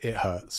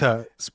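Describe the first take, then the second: First: The words are separate with a clear h sound. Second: The words run together without an h sound. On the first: The speaker calls it right. "but it is it hurts" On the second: The speaker calls it wrong. "he says it as"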